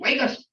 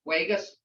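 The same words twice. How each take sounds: First: It is said in a firm, stern voice. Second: It is said in a calm, gentle voice. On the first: A serious order to stop now. "But if you really, like with my grandson, I have to say" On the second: A mild request to stop. "That's calm"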